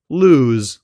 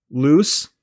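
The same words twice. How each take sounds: First: "lose" with a lengthened vowel before buzzing z; longer vowel, voiced z. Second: "Loose" with a shorter vowel before a hissed s; shorter vowel, voiceless s. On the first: Teacher contrasting vowel length for learners, "lose" with long vowel and z. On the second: Teacher contrasting vowel length for learners, "Loose" with short vowel and s. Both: Shown as a demonstration. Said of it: "vowel sound before the z is typically longer".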